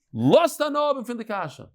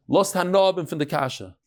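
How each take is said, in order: First: Higher, pushed repeat of "Lost hanob and fin de kasha" over a shouting hall; raised over the noise. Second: Said in the usual way. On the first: Retold or imitated. Rabbi calling over screaming students, raised higher. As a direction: call it out higher to cut through the yelling. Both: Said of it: "So he would say in Yiddish".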